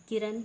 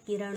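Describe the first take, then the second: First: किरण ending in dental n, kiran; plain n at the end of किरण; wrong pronunciation. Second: किरण ending in retroflex ṇ; correct pronunciation. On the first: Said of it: "नहीं होता". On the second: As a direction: curl the tongue back for the end of किरण. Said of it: "होता है". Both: Shown as a demonstration.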